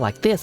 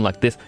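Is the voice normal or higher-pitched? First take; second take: higher-pitched; normal. First: It is said in a higher voice. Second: It is said in the normal voice.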